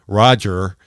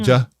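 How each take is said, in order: First: The final r sound is clearly pronounced. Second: The final r sound is dropped for ah. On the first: "I have the R" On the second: "substituted the an R for an A H sound"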